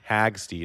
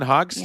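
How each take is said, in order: First: The name is said in a Midwestern accent. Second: The name is said in a neutral accent.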